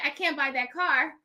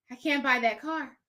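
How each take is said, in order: First: Said in the usual way. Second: Quieter, sheepish refusal; blurted refusal. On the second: Retold or imitated. To the eager salesman, a sheepish quiet refusal. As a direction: blurt it out, a bit embarrassed.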